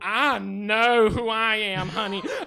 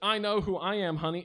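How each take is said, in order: First: It is said in a put-on Western accent. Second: It is said in the speaker's plain accent. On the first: "throw in a Western accent" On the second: "instead of just"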